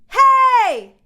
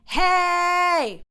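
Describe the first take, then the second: First: It is a short, quick shout. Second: It is a long, stretched-out shout.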